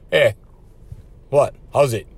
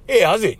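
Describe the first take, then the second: First: The greeting sounds challenging and threatening. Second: The greeting sounds relaxed and friendly.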